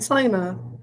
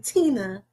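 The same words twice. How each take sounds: First: The name is said in a country way. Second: The name is said in a standard way. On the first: This is how the speaker naturally says the name. "Cause I am country. I'm gonna say Tina" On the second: This is how others expect the name to be said. "I don't say Tina"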